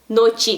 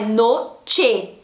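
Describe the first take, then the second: First: The final vowel sounds like I. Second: The final vowel sounds like E. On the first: The speaker calls it wrong. "noche com som de I no lugar do E, não" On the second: The speaker calls it right. "é noche"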